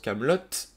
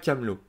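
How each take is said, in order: First: The final t sound is clearly pronounced. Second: The final t sound is left silent. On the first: The speaker calls it right. "deux T à la fin pour que l'on prononce Kaamelott" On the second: The speaker calls it wrong. "et non pas Camelot"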